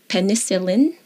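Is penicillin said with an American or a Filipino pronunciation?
American. It is said with an American English pronunciation. "In the States, it is"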